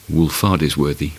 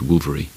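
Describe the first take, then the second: First: The name is said the way it is spelled. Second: The name is said like 'Wolvery'. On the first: The speaker calls it wrong. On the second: The speaker calls it right.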